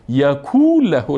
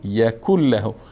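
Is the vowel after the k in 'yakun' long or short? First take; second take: long; short. First: The vowel after the k is long. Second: The vowel after the k is short. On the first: The speaker calls it wrong. "یکون له نمیخوانیم، واو نیست" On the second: The speaker calls it right. "ولم یکن له"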